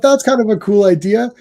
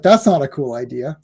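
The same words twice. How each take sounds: First: Higher-pitched, pleased reaction; retold approval. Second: Retold disapproval. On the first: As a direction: act out liking the idea at first. Retells pleased first reaction. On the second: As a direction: pitch dropped to deadpan letdown. Retells turning against the idea.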